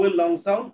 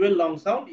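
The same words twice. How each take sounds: The two takes are said the same way.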